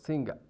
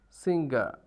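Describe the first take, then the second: First: It ends without an r sound. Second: It ends with an r sound. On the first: "there's no ra uh, at the end of the word in R P" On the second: "and singer in general American English"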